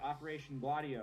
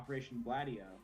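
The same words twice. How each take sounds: First: Gladio is pronounced in a non-American way. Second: Gladio is pronounced in an American way.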